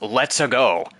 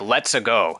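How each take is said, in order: First: It is said in an American accent. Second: It is said in an Italian accent. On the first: The actor is just talking as himself. The speaker calls it wrong. "he just says it in an American accent" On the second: This is how the character should sound. The speaker calls it right. "lines that should be said with an Italian accent"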